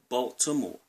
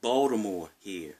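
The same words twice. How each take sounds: First: "Baltimore" said fully, every syllable clear; careful, full "Baltimore"; proper Baltimore. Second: "Baltimore" clipped the local way, like "Baldamore". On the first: Vlogger giving the correct city name, careful. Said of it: "It's pronounced". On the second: Maryland local saying his city's name, local slur. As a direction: swallow the middle of "Baltimore". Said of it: "We also say". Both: Shown as a demonstration.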